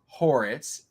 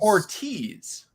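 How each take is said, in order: First: The 'i' sound comes before the 't'. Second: The 't' sound comes before the 'i'. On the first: The speaker calls it wrong. "It's not pronounced Horitz" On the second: The speaker calls it right. "I thought the I was before the T"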